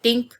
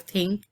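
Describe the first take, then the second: First: Tink with a hard T, no th. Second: Said in the usual way. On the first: Shown as a demonstration. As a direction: say "Tink" with a plain T sound. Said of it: "I said, "Tink" instead of "think". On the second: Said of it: "instead of "think".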